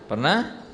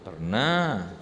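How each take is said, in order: First: Rising question to the audience; preacher asks "Pernah?" with a rising question; asking the crowd. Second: "Pernah." answered with a falling confirming tune; preacher confirms "Pernah." lower and falling; answering for them. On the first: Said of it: "asks the congregation". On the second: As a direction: answer the question yourself with a settled fall. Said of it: "answers own question". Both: Shown as a demonstration.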